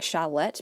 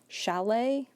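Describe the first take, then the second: First: The final t sound is pronounced. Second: The final t sound is silent. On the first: The speaker calls it wrong. "I've been saying chalette because that's how it's spelled" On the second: The speaker calls it right. "I think it's supposed to be pronounced chalet"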